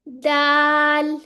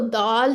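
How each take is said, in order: First: It is said thinly with lips slightly stretched. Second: It sounds like the everyday word for lentils. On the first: The speaker calls it right. "बारीक लेटर्स ... होंठ थोड़े-से स्ट्रेच हो जाते हैं" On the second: The speaker calls it wrong. "दाल नहीं करना, दाल-चावल नहीं है ये"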